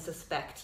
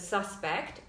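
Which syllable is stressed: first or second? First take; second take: second; first. First: The stress is on the second syllable. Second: The stress is on the first syllable. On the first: It is used as a verb. "the verbs the second" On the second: It is used as a noun. "Nouns usually have the first syllable stressed"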